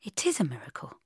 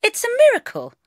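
First: Hushed, near-whispered admission; soft. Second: High, loud, triumphant; proud proclamation. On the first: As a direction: breathe it quietly, almost whispering. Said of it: "he said softly". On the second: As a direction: announce it proudly in a raised pitch. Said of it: "I said proudly". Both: A narrator's reading.

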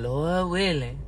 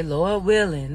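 First: Softer, noncommittal "Lord willing", trailing down; doubtful tone. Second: Said in the usual way. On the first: Shown as a demonstration. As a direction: say "Lord willing" like you don't believe it. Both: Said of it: "look at that tone".

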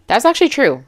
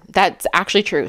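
First: Surprised agreement. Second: Said in the usual way. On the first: Real, not acted.

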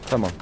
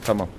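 No difference in how they are said.

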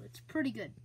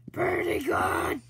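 First: Said in the usual way. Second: Slow, hushed whisper. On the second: Shown as a demonstration. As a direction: breathe it out as a whisper. Repeats it as a whisper.

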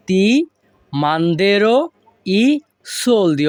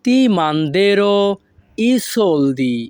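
First: Each word standing on its own. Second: Said in the usual way. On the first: Shown as a demonstration. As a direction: dictate with a pause after each word. Teacher repeats phrase word by word. (আলাদা আলাদা শব্দে থেমে থেমে)

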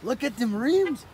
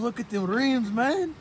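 First: Slower, stretched, louder admiring call; drawn-out admiration. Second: Hyped, louder call to look; excited. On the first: Friend admiring the rims again, slow and drawn out. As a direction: savor each word of it. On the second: Friend hyped about a car's rims, louder. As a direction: point it out all fired up. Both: Real, not acted.

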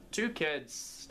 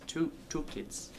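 First: Said in the usual way. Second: Breathy whispered correction; whispered repeat. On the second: Shown as a demonstration. Narrator repeating the number, whispered aside. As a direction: whisper the words again.

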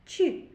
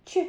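First: Ч said softly, palatalised like chy; soft ch sound. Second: Ч said as a hard, firm ch; hard ch sound. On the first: Teacher showing pupils the soft Ч sound. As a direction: soften the Ч for the class to hear. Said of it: "вимовляється м'яко". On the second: Teacher to pupils, modelling the hard Ч sound. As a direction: model the hard Ч for children to repeat. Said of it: "Повторіть". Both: Shown as a demonstration.

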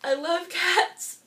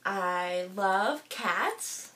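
First: Said in the usual way. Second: Slow, choked-up words, barely holding it together. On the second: Real, not acted. Vlogger to viewers, choked-up and very slow. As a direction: voice catching on love as tears come. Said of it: "I'm just getting a little bit emotional".

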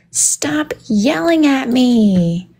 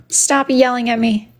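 First: Slow, swooping mock complaint; mock whine. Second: Said in the usual way. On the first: Streamer playfully protesting to chat, slow drawn-out whine. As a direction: drag every word out in protest.

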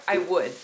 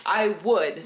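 First: Said in the usual way. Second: "I would" louder, slower, I pressed hard; insist, lean on "I would"; emphatic repeat. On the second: Real, not acted.

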